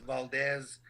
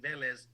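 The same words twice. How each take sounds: First: Valdez, the wrong version with "val-DEZ"; mispronunciation. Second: Velez said as "VEH-lez", the proper way; correct pronunciation. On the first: Announcer showing how people get Velez wrong. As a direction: say Valdez as the butchered name. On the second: Announcer saying his own name Velez properly. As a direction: give Velez its correct sounds, vel-ez. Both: Shown as a demonstration. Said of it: "is mispronounced".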